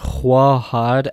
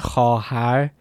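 First: A w sound follows the initial kh. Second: No w sound follows the initial kh. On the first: This is a dialect form from Afghanistan. "you are saying" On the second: This is the standard form. "instead of saying"

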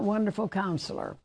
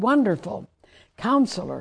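First: There is no pause after 'Wonderful'. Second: There is a pause after 'Wonderful'.

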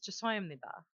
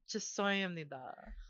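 First: It is said at normal fast speed. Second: It is said slowly and carefully.

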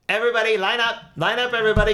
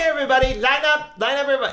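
First: The pitch stays level throughout. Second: The pitch moves up and down. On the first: "I had to kind of keep it level when I was doing her voice" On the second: "originally, she was like"

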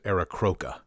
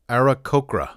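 First: The R sound is moved to another position. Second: The R sound is in its usual position. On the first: The speaker calls it wrong. "putting the R in the wrong place" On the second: The speaker calls it right. "they have a pronunciation"

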